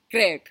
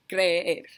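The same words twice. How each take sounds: First: The two e vowels merge into one. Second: Both e vowels are sounded separately. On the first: The speaker calls it wrong. "no es una palabra, porque se juntan uh, esas sílabas" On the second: The speaker calls it right. "las dos letras suenan"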